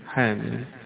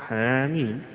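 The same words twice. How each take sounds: Both takes have the same delivery.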